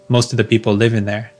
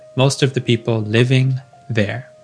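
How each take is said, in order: First: It is fast, with "living" reduced to "livin'". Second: It is slow, with "living" fully pronounced. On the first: It is casual talk between native speakers. "if I'm speaking to a friend who's also a native speaker, I would say, live in there" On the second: It is said for a learner. "If I was in an English lesson with a student, I would just say living there. ... slowly"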